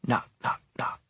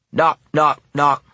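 First: Three soft, hushed, evenly spaced knocks; soft knocking. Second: Three loud, higher, punched knocks; loud knocking. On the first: Narrator echoes rapping from behind the storeroom door, softly. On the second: Narrator echoes insistent rapping at the storeroom door, loudly. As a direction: hit each knock hard, like insistent rapping. The knocking repeats, more forceful. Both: A narrator's reading.

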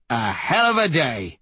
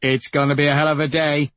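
First: HELL lifted high, then falling away; higher pitch jumping up on "hell"; savoring emphatic repeat. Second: Quick, higher-pitched relish; eager leader relishing the mission; gleeful anticipation. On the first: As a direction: lean on "hell" with gleeful relish. Leader repeats himself with relish. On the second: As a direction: rush it out with wild glee. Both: Acted.

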